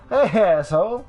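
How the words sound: It sounds friendly and playful.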